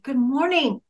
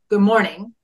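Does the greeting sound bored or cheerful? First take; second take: cheerful; bored. First: It is said in a warm, cheerful tone. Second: It is said in a flat, uninterested tone.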